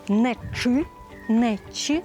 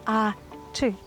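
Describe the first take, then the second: First: The ch sound is pronounced in an extreme way. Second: The ch sound is pronounced in a moderate way. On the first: The speaker calls it wrong. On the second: The speaker calls it right. "Нам потрібна золота середина"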